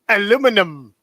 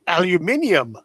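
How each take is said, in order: First: It has the American four-syllable form. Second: It has the British five-syllable form.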